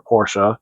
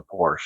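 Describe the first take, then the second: First: "Porsche" with the final e sounded as uh; "Porsche" ending in an unstressed "shuh"; two-syllable Porsche. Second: "Porsche" with a silent final e; "Porsche" rhyming with "torch", ending in sh; one-syllable Porsche. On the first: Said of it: "I'm supposed to say Porsche". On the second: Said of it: "I should say Porsche instead of Porsche". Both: Real, not acted.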